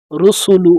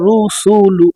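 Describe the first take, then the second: First: রুসুলু read in one quick breath, syllables joined with no stretch. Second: রুসুলু stretched slowly, syllables pulled apart; wrong drawn-out reading. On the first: Teacher to students, showing the correct joined রুসুলু. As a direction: run রুসুলু together smoothly, no drawn-out vowel. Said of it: "একসাথে". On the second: Teacher to students, imitating the common wrong slow রুসুলু. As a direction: drag out রুসুলু the way it is often misread. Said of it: "এইভাবে অনেক আমার মা বোনেরা পড়ে থাকে". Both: Shown as a demonstration.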